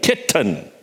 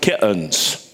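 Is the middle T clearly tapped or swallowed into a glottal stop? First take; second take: tapped; glottal stop. First: The middle T is clearly tapped. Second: The middle T becomes a glottal stop. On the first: The speaker calls it right. "The T in the middle requires that the tongue tap the back of the teeth" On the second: The speaker calls it wrong. "that middle T is disappearing. And now we are left with kittens"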